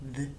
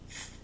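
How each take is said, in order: First: The th sound is voiced, with throat vibration. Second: The th sound is voiceless, without throat vibration. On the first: "you can feel it vibrating when you say it that way" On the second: "there's no vibration with that"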